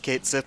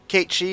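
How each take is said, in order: First: The name is said like 'Kate Sith'. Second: The name is said like 'Kay-shee'. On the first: This is the form used out of long habit. "I've read it and said it out loud as Kate Sith for so long" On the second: This is the form it is meant to have. "subconsciously know that it's supposed to be said"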